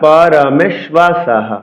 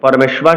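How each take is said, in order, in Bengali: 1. শব্দটি শ্বাসযুক্ত 'হ' ধ্বনি দিয়ে শেষ হয়। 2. শব্দটির শেষে কোনো 'হ' ধ্বনি নেই। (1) "বলতে হবে কাশ্যশ্চ পরমেশ্বাসহ" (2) "পরমেশ্বাস বলা যাবে না"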